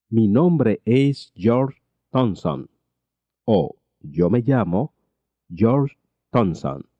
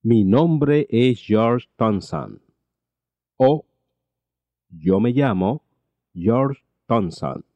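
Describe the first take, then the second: No difference in how they are said.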